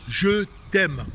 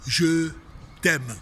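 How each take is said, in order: First: Said with feeling. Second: Said in the usual way. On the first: Shown as a demonstration. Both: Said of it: "on apprend à dire".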